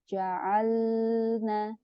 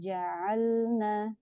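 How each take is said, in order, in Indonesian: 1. Bunyi L ditahan terlalu lama. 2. Bunyi L hanya ditahan sebentar. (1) "tidak boleh dibaca terlalu lama" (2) "cukup uh, sekadarnya"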